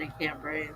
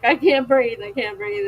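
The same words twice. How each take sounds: First: Very soft, breathless; gasping it out quietly, half-crying; can't breathe. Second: Louder, higher panicked gasp that fades; replaying her hospital panic attack; mock panic. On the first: Retold or imitated. Telling her audience she can't breathe, soft and breathless. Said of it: "I start crying". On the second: Retelling her hospital panic to viewers, mock panicked gasp.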